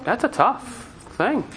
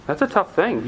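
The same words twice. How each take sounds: First: Drawn out slowly, softer, letting it sink in. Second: Said in the usual way. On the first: Shown as a demonstration. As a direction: say it slowly and quietly, weighing it.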